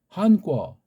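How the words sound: It is said the Chinese way, two syllables. "이 중국 아이들이 한자는 그죠? 한꺼"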